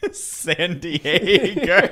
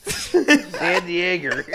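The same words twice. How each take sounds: First: Put-on very slow, laughing Boston accent. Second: Put-on slow, loud Boston accent. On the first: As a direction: drawl San Diego in a Boston accent. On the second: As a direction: draw San Diego out in a Boston accent. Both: Boston accent city name.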